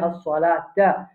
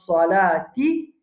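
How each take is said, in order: First: The word ends with an 'a' vowel. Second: The word ends with an 'i' vowel.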